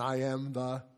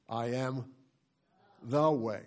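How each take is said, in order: First: The stress falls on "way". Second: The stress falls on "the".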